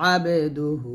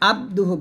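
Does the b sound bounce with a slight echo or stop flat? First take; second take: bounced; flat. First: The b bounces with a slight echoing vowel. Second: The b stops flat with no echoing bounce. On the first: The speaker calls it right. "এই যে আবে এরকম বলবেন" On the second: The speaker calls it wrong. "এখানে আবদুহু বলবেন না"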